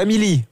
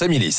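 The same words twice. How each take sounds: First: The final S is silent. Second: The final S is pronounced. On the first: The speaker calls it wrong. "On ne prononce pas le S" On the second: The speaker calls it right. "Ah, on le prononce"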